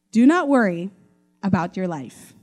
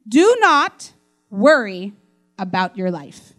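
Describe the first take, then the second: First: A hint of Jesus reassuring a friend; gentle Jesus. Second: Slow, weighty "Do not worry", each word leaned on; slow emphatic scripture reading. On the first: Jesus speaking to Mitch personally, mildly reassuring. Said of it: "he'd probably speak like that". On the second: Shown as a demonstration. Preacher reading Jesus' words to the congregation, slow and weighty. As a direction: let the command sink in slowly. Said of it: "But I love how it says it here".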